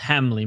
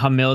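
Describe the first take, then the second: First: The name ends with an 'ee' sound. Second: The name ends with an 'il' sound. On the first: The speaker calls it right. "it's Hamley" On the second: The speaker calls it wrong. "I've been mispronouncing his name this whole time. Saying Hamil"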